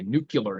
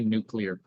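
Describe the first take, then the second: First: The word is said as nu-cu-lar. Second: The word is said as nu-clear. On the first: The speaker calls it wrong. "I don't say nuclear anymore" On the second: The speaker calls it right. "I can say nuclear properly now"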